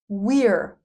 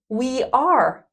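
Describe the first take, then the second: First: The words merge into one short syllable. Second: Two separate full words are said.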